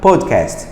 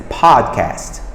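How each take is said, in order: First: "podcast" with a careful rounded o; learner's pronunciation. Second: "podcast" with a long, open American "pahd"; native English pronunciation. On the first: Teacher contrasting two takes for viewers, learner's pronunciation. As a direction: say "podcast" neatly, in a non-native learner's way. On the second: Teacher showing the difference to viewers, native pronunciation. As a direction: say "podcast" like a native, stretching the first vowel. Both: Shown as a demonstration. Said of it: "Olha a diferença".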